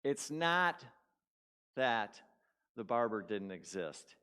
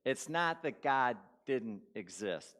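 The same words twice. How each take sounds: First: Said in the usual way. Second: Slow, with the weight on "not"; preacher driving the point home to the congregation; slow emphatic restatement. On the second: Shown as a demonstration. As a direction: lean on "not" and let the line land slowly. Sermon point restated slowly.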